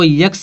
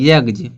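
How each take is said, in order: First: The word ends with an s sound. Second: The word ends with a z sound. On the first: The speaker calls it wrong. "इसको यक्स नहीं पढ़ेंगे लोग" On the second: The speaker calls it right. "जा निकलेगा"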